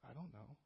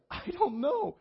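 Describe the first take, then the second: First: Tiny, very soft voice; barely audible, imitating her helplessness; timid admission. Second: Very high, helpless squeal; mock panic. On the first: Stumped by a stranger's Bible question, timid admission. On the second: Cornered by a second stranger's question, mock panic. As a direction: imitate a flustered, high-pitched outburst.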